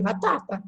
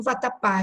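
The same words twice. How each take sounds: First: "vatapa" stressed on the middle -ta-, weak final syllable; misplaced stress. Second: "vatapá" stressed on the final -pá; stress on last syllable. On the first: Teacher showing the word without its accent, "vatapa" stressed on -ta-. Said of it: "eu tiro o acento do vatapá". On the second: Teacher reading the accented word, final stress on "vatapá". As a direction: put the weight on the last A of "vatapá". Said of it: "eu vou ter que ler vatapa". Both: Shown as a demonstration.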